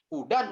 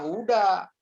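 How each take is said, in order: First: The word ends with an n sound. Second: The word ends on a bare vowel. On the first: The speaker calls it right. "Hudan itu" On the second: The speaker calls it wrong. "jangan dibacanya huda"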